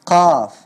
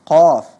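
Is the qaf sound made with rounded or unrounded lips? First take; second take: unrounded; rounded. First: The qaf is said with unrounded lips. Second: The qaf is said with rounded lips. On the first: The speaker calls it right. "tapi qaf ya. Lidah kita yang naik ke atas" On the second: The speaker calls it wrong. "bukan qaf"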